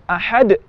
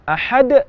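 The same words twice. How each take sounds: First: The final bounce is cut off by a glottal catch. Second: The final bounce is cut off by a glottal catch.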